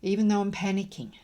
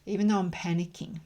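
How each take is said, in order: Both takes have the same delivery.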